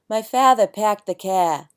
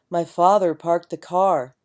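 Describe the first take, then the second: First: It is said in a Boston accent. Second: It is said in a West Coast accent.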